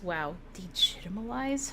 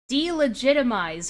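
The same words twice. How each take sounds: First: Degitimalize, said as a wrong blend of delegitimize; muttered degitimalize in disbelief; mispronounced word. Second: Delegitimize said right, laughing; delegitimize, finally correct, through a laugh; correct pronunciation. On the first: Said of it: "wow, degitimalize?". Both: Real, not acted.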